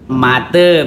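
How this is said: The vowels are a then e. This is the A E dialect form. "yang kami sebut seperti A E misalnya menyebut mate"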